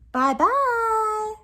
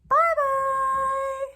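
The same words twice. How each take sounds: First: It is said in a soft voice. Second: It is said in a squeaky little voice.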